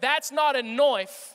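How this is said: Knife is said with an 'oi' vowel. The speaker calls it right.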